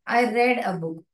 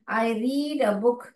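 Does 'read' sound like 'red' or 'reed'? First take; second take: red; reed. First: The verb has a short vowel, like 'red'. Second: The verb has a long vowel, like 'reed'. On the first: The reading happened in the past. "यहाँ पे रेड, ऐसे pronounce आ रहा है" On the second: The reading happens habitually in the present. "If you रीड it as रीड, it is present"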